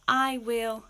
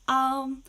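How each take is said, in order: First: It is said as two full words. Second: It is said as one contracted syllable. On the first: "we have I will" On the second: "contractions are when we have two words that we put together"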